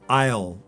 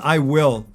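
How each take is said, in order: First: It is said as one contracted syllable. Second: It is said as two full words. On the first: The speaker calls it right. "We would use the contraction here" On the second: The speaker calls it wrong. "its full form"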